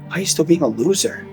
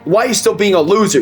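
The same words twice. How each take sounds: First: The question sounds sad and disappointed. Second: The question sounds harsh and attacking. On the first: The speaker cares and is let down. The speaker calls it right. "She came from a place where I felt a disappointment in her" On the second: The speaker is insulting the listener. The speaker calls it wrong. "she didn't say"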